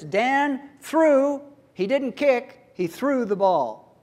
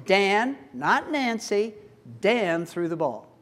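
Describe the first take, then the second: First: THREW drawn out and raised, contrasted with "kick"; slow, high "threw", set against "kick"; stress on threw. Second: DAN set apart and stressed, contrasted with Nancy. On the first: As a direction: hit "threw" as the action that matters. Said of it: "The emphasis is on that". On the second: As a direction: punch "Dan" as the one who did it. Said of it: "the focus is on Dan". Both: Shown as a demonstration.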